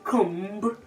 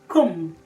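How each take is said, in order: First: The final b is pronounced. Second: The final b is silent. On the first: The speaker calls it wrong. "you don't say comb" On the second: The speaker calls it right. "the b sound automatically becomes silent"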